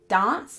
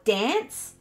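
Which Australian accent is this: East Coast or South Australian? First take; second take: South Australian; East Coast. First: It is said in a posh South Australian accent. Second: It is said in an East Coast Australian accent. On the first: "I say dance and plant and branch, which makes me sound like I've got a bit of a stick up my bum" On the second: "New South Welshmen, Queenslanders, and Victorians all say plant or dance"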